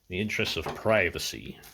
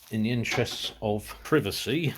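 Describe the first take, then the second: First: It is said in an American accent. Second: It is said in an English accent.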